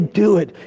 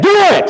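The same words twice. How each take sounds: First: It is said casually, without urgency. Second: It is said urgently, with forceful necessity. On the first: It is a light, optional suggestion. The speaker calls it wrong. "He didn't say do it" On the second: It must be done now. The speaker calls it right. "Did you hear the necessity in my voice?"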